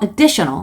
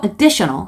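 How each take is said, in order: First: The stress is on the second syllable. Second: The same.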